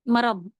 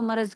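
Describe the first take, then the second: First: The word ends with a heavy d-like sound. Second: The word ends with a z sound. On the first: "ज़ाद पढ़ते हैं ना" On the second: "Urdu में हम लोग इसको मरज कहते हैं"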